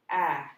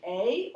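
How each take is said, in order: First: "ah" as the short vowel in apple; a short, lower "ah", set apart by a pause. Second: "a" said as its letter name, ay; long A. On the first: Teacher giving pupil the other choice of sound, short A. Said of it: "or should it say". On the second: Teacher asking pupil which sound fits the pattern, long A. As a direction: say "a" as long ay, questioning. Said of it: "Should it say a or should it say". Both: Shown as a demonstration.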